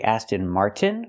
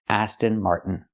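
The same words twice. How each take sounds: First: The t in Martin is a full t. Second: The t in Martin is a stopped airflow. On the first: "with a T" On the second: "make it a stop T"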